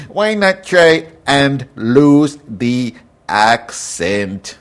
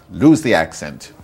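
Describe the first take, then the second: First: Louder, higher, slowly drawn-out fake Canadian accent; mock Canadian accent. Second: Said in the usual way. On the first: Ranting podcaster telling amateurs off, in exaggerated Canadian accent. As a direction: stretch it out in a caricatured Canadian accent. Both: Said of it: "you talk like this".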